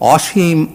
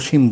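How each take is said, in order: First: The first vowel is an open 'aw' sound. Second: The first vowel is a closed 'o' sound. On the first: It is used as a describing word. "আমরা বলতে পারি অসীম আকাশ" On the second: It is used as a person's name. "যদি নামের অর্থে বলি"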